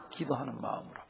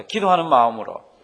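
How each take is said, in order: First: 기도하는 마음으로 said softly and low, falling; soft answer. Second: 기도하는 마음으로 called out louder, stress on 기도하는; call and response. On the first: Pastor quietly giving the answer before the congregation repeats it, soft. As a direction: hand the answer over quietly. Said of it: "뭐라고요?". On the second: Pastor leading the congregation to repeat after him, loud call. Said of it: "한번 따라 하십니다". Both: Shown as a demonstration.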